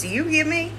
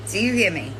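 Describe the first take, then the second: First: Higher, rising demand, stress on hear; pointed question. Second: Said in the usual way. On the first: Real, not acted. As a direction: push the word hear up sharply, asking hard. Pressing her to listen.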